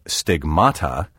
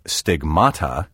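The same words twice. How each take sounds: First: The stress is on the second syllable. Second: The stress is on the second syllable.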